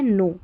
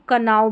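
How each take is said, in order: First: The word starts with an n sound, no k. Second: The word starts with a k sound before n. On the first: The speaker calls it right. "के silent है" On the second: The speaker calls it wrong. "इसको कनाव भी पढ़ देते हैं कई जने"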